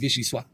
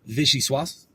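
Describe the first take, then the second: First: The final S sound is muted and dulled. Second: The final S sound is clearly pronounced. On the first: "the like S is kind of like muted, dulled, kind of silent a little bit" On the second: "it's really vichyssoise"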